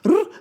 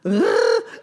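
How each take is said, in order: First: The r sounds like an Austrian accent. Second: The r sounds like a standard German r.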